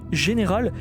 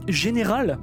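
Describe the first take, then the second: No difference in how they are said.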